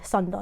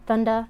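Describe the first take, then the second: First: The word begins with an S sound. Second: The word begins with a TH sound. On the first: The name is given the Japanese way. "it's really Sunda, not Thunder" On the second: The name is given the English way. "I just said Thunder so you guys can understand me"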